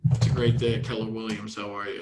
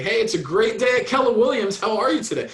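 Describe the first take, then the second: First: Gloomy phone greeting. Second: Bright, higher, louder greeting with a smile; smiling phone greeting. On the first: Agent greets a caller without smiling, glum. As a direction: lower and fading, no smile at all. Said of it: "you can hear that also". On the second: Agent greets a caller with an audible smile. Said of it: "You can hear the smile in their voice". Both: Shown as a demonstration.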